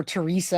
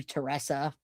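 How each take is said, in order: First: Teresa said tuh-REE-suh; Teresa, middle syllable rhyming with "see"; alternative name pronunciation. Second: Teresa said tuh-RESS-uh; Teresa, middle syllable rhyming with "dress"; alternative name pronunciation. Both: Shown as a demonstration. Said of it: "I don't wanna say it wrong".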